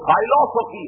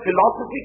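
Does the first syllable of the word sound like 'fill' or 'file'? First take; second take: file; fill. First: The first syllable is said like 'file'. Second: The first syllable is said like 'fill'. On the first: This form reveals a link to the study of language. "ذرا تلفظ بدلیے تو فائلوسفی ہے" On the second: This is the usual everyday form of the word. "جسے ہم فلاسفی کہتے ہیں"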